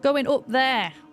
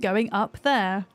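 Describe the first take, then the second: First: It is said with a northern English accent. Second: It is said with a posh English accent. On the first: "That sounds northern" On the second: "borderline what's called received pronunciation"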